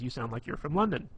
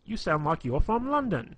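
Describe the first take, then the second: First: Said in the usual way. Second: High, loud put-on British accent; hammed-up British impersonation from a movie; mock British accent. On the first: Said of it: "does this, uh, impersonation". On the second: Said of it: "does this, uh, impersonation of, like, a British accent".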